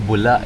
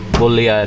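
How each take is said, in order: First: The second syllable is said as 'la'. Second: The second syllable is said as 'lya'. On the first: This is how the speaker usually says it. "Ako bula eh" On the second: This is how others say the name is said. "Bulya daw, hindi daw bula"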